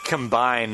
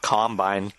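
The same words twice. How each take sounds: First: The stress is on the second syllable. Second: The stress is on the first syllable. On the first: To merge things together. The speaker calls it right. "They combine, not combine" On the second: The farm harvesting machine. The speaker calls it wrong. "You're making them sound like farmers"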